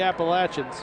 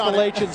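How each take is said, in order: First: Pronounced the way people in North Carolina say it. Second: Pronounced the way people in New York say it. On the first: This is how people in the local area say the name. The speaker calls it right. "but down here it's the Appalachians" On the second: This is how people up north say the name. The speaker calls it wrong. "If you live in New York, they can be the Appalachians up there"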